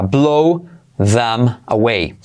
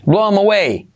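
First: Very slow blow them away; slow explained. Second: "Blow 'em away" with them cut to 'em; dropped th. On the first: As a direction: stretch every word out. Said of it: "primero explicado lento". (despacio, palabra por palabra) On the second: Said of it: "Esa T H la podemos omitir". (sin la T H: "blow 'em away") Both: Shown as a demonstration.

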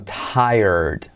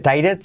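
First: "tired" drawn out slowly as "tai-erd"; correct pronunciation. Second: "tired" misread as two syllables, "tai-red"; wrong pronunciation. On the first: ("tired" bien dicho, lento, como "táierd") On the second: ("tired" mal dicho, como "tái-red") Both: Shown as a demonstration. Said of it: "No se dice tired, sino tired".

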